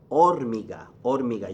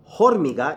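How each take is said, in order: First: "hormiga" starting straight on the O; silent H. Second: "hormiga" with a breathed H at the start; wrongly sounded H. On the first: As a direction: drop the H, "hormiga" as or-MEE-ga. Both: Shown as a demonstration. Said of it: "H is silent".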